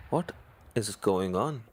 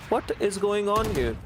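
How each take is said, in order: First: Said in the usual way. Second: High, fast, astonished call; excited disbelief. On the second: Real, not acted. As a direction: shout it out amazed. Caster reacts to a multi-kill.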